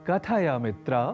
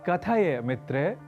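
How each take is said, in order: No difference in how they are said.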